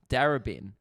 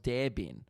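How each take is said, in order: First: The name is said as 'Darra-bin'. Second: The name is said as 'Dare bin'. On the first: The speaker calls it right. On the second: The speaker calls it wrong.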